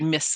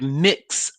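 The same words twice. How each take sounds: First: The word ends with a plain 's' sound. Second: The word ends with a clear 'ks' sound. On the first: "Like M I S S?" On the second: "She didn't say the trip was a weird mix of stuff"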